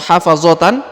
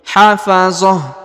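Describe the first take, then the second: First: The word ends with a full 'tan' sound. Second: The word ends with a soft 'h' sound. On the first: The reading continues without stopping. "atau hafazotan" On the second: The reading stops at this word. "kalau kita berhenti hafazah"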